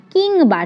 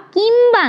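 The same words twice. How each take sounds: First: কিংবা with a clear ng, "kingba"; correct pronunciation. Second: কিংবা said as "kimba", with an m sound; the common wrong way, কিংবা as kimba; wrong pronunciation. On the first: Teacher to trainee teachers, modelling correct কিংবা. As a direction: say কিংবা with the nasal ng sound. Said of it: "কিংবা নয়, কিংবা". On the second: Teacher to trainee teachers, showing the wrong কিংবা. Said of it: "কিংবা নয়". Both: Shown as a demonstration.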